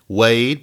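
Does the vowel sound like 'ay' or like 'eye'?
ay. The vowel sounds like the 'ay' in day. "not Wade"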